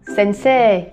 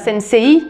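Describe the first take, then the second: First: The last syllable has a long plain e. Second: The last syllable glides from e to i. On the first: The speaker calls it right. "On dit bien sensei" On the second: The speaker calls it wrong. "On ne dit pas sensei"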